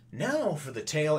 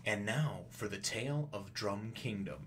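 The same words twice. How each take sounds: First: Lifted, louder announcer opening; narrator announcement. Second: Slow, softer storybook narrator voice. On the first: Narrator breaking into the scene, raised announcer voice. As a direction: announce the tale with a raised pitch. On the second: Narrator coming in to open a flashback, slow and hushed. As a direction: intone it slowly, like a flashback voice-over. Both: Acted. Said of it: "narrator coming in and going".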